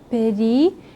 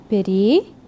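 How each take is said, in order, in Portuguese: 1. Uma vogal leve separa as duas primeiras consoantes. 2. Uma vogal leve separa as duas primeiras consoantes.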